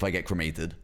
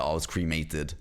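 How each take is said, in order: First: Low "cremated" as "kruh-MAY-tid"; British pronunciation. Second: Low "cremated" as "CREE-may-tid"; American pronunciation. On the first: Shown as a demonstration. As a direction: give "cremated" a short, weak first syllable. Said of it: "Only British pronunciation is allowed". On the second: Retold or imitated. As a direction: imitate "cremated" with a long "cree". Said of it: "do not let an American say".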